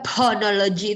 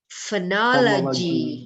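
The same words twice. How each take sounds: First: The word begins with a p sound. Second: The word begins with an f sound. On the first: The speaker calls it wrong. "nggak ada phonology itu nggak ada" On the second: The speaker calls it right. "tapi kalau ph bacanya F"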